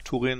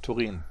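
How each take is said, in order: First: The stress is on the first syllable. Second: The stress is on the last syllable. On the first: The speaker calls it wrong. "ich sage nicht nach Turin" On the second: The speaker calls it right. "sondern nach Turin"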